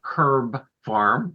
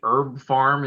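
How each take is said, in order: First: It is said the way a British speaker would. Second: It is said in the speaker's usual American way.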